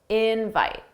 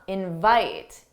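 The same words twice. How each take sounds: First: The stress is on the first syllable. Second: The stress is on the second syllable. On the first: It is used as a noun. "the stress is on in" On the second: It is used as a verb. "for the verb, the stress syllable is the second syllable"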